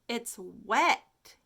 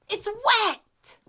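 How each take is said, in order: First: It is said calmly, without excitement. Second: It is said excitedly, stressing wet.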